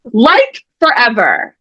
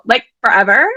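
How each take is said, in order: First: Said in the usual way. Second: A hint of Valley Girl, rising on forever; breezy Valley Girl question, like forever?; light Valley Girl. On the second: Shown as a demonstration. Host showing Sam the line, lightly voiced Valley Girl. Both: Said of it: "use your best Valley Girl voice".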